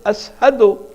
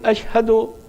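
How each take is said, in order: First: The word is said with a plain 's' sound. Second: The word is said with a clear 'sh' sound. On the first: "He cannot pronounce sheen properly" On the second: "Instead of saying"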